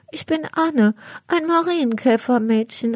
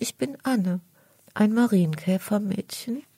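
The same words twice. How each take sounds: First: Put-on much higher, small bright girl's voice; little ladybird girl. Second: Timid. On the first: Ladybird girl answering the cat: high little girl voice. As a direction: sound like a tiny beetle introducing herself. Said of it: "antwortet das kleine Käferchen". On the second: Acted. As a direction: shrink back while saying who you are. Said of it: "sagt das Käfermädchen ängstlich".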